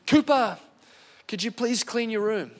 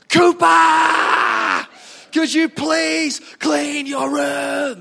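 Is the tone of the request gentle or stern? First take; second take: gentle; stern. First: The request is said in a gentle, mild tone. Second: The request is said in a stern, forceful tone. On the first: A polite first request. "Parents know the power of tone" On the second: A final warning after being ignored. "Listen to me. There's a power in tone"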